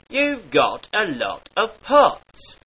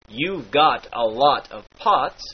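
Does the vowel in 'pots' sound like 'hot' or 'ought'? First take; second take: ought; hot. First: The vowel in 'pots' is like in 'ought'. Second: The vowel in 'pots' is like in 'hot'. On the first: "darkens to the R sound in words like ought" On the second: "The R sound in words like hot"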